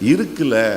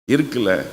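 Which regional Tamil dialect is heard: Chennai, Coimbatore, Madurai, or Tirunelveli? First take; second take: Tirunelveli; Tirunelveli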